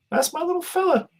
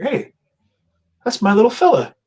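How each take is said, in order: First: Even higher, squeaky mock mom; doting mom voice. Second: Mock proud mom, pitched much higher. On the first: Streamer repeating the mom's line, squeakier doting mom voice. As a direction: gush it like an overjoyed mother. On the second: Streamer imitating a viewer's mom spotting her son, high doting voice. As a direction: coo it like a doting mother. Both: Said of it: "she's like".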